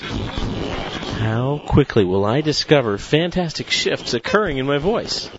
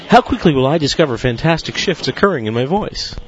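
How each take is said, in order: First: It starts slower and speeds up throughout. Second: It is spoken at a very rapid pace. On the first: "now with an increasing pace" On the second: "even more rapid perhaps"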